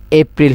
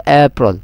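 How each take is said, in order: First: এপ্রিল with a clear "i", "ep-ril"; usual local APRIL. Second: এপ্রিল with a rounded ending, "ey-prol"; corrected APRIL. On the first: Teacher quoting the local habit, এপ্রিল as "ep-ril". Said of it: "আরা যেবারে কি হয়". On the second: Teacher correcting students, এপ্রিল as "ey-prol". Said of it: "এবারে হইবে". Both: Shown as a demonstration.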